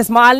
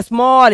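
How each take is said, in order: First: स्मॉल mispronounced with open 'aa', 'smaal'; स्मॉल with the vowel of 'father'; wrong reading. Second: स्मॉल with rounded 'aw', 'smawl'; स्मॉल with long 'aw'; correct reading. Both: Shown as a demonstration. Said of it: "इसे स्मॉल नहीं बोलते".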